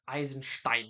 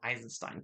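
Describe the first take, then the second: First: The name is pronounced the German way. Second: The name is pronounced the usual English way. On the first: The speaker calls it right. "I've got German ancestry. Come on, it's it's it's Eisenstein" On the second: The speaker calls it wrong. "It's not Eisenstein"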